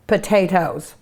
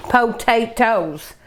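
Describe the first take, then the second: First: Said in the usual way. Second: "Potatoes" drawn out with a full "oh" in the first syllable; enunciated syllables. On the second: Real, not acted. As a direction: say "Potatoes" slowly as po-tay-toes. Repeats word with full syllables.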